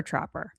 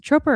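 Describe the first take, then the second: First: Tropper with an open "ah", like TRAH-per; short O pronunciation. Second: Tropper with a long O, like TROPE-er; long O pronunciation. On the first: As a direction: say the first vowel of Tropper as in "trap door" but "ah". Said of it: "Uh, it's Tropper". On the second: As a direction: say the first vowel of Tropper as "oh". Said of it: "Is it Tropper or Tropper?". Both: Shown as a demonstration.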